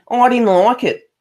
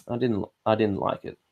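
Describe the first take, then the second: First: Thick bogan Australian accent, pitched much higher and louder; broad bogan Aussie. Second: Said in the usual way. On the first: Shown as a demonstration. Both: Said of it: "Sometimes I sound so bogan".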